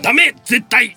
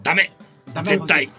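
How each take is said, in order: First: The phrase is said forcefully, with extra strength. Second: The phrase is said mildly, without extra force. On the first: The speaker calls it right. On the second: The speaker calls it wrong.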